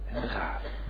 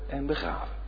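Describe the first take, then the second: No difference in how they are said.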